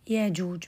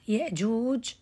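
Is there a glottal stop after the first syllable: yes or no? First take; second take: no; yes. First: A long vowel with no glottal stop follows. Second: A glottal stop follows the first syllable.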